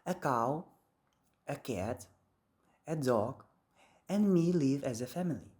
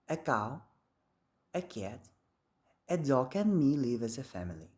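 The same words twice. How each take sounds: First: There is a pause before "and me" too. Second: There is no pause before "and me". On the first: "in American English, there is a pause between a dog and me" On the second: "in British English, there is no that pause"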